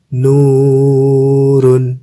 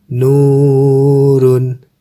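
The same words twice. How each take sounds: Both takes have the same delivery.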